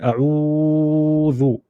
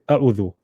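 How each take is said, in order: First: The vowel is lengthened for a long time. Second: The vowel is short, with no lengthening. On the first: "We won't pull it too much either" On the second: "we won't ignore it and say"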